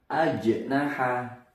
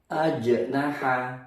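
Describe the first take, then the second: No difference in how they are said.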